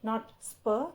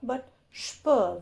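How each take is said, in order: First: The s is a plain hissing s. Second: The s sounds like sh. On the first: The speaker calls it wrong. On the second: The speaker calls it right. "with an additional h sound"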